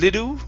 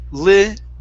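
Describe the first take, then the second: First: The word ends in an oo vowel sound. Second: The word ends in a clear L sound. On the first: The speaker calls it wrong. "instead of little with an oo sound" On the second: The speaker calls it right. "go to an L"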